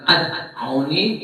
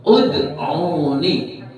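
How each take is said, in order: First: The word begins with the vowel a. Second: The word begins with the vowel u. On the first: The speaker calls it wrong. "bukan ad'uni" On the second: The speaker calls it right. "rabbukum terus ud'uni"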